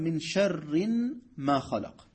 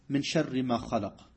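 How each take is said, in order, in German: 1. 'sharri' wird mit angehängter n-Endung gesprochen. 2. 'sharri' wird ohne n-Endung gesprochen. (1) "er hat die Ayah verfälscht gelesen" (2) "ich kann die Ayah nicht so lesen"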